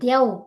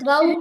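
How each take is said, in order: First: The second consonant is a y sound. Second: The second consonant is a v sound. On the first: The speaker calls it right. "యకారం రావాలి" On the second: The speaker calls it wrong. "ద్వౌ కాదు"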